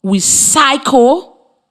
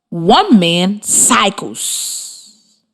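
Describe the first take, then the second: First: Drawn-out we cycle, very slow; slow model; slow demonstration. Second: Very slow one man cycles, leaning on the s; slow model with stressed ending. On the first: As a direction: say we cycle at x0.5 pace. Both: Shown as a demonstration. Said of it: "For example".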